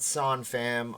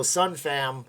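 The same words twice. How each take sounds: First: "Son" with an open aw vowel, like sawn; "Son" opened to sawn, as an alternative; Son pronunciation. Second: "Sun" with a short uh vowel, like sunshine; "Sun" as in sunlight, drawn out; Sun pronunciation. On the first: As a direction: say "Son Fam" with "Son" rhyming with dawn. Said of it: "I don't wanna say it wrong". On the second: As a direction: say "Sun Fam" with "Sun" rhyming with fun. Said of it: "or is it Son Fam". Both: Shown as a demonstration.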